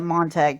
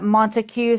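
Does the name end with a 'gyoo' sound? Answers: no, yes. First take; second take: no; yes. First: The name ends without a 'gyoo' sound. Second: The name ends with a 'gyoo' sound.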